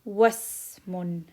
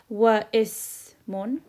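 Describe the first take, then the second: First: The words run straight into the s. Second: A separate vowel sounds before the s. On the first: The speaker calls it right. "I skip the alif completely and I say wasmun" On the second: The speaker calls it wrong. "I don't say wa ismun"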